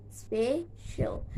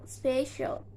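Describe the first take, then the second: First: "special" split into spe and cial; syllable by syllable. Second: Said in the usual way. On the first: Shown as a demonstration. Teacher showing two syllables, "special" said in separate beats. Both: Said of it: "two syllables".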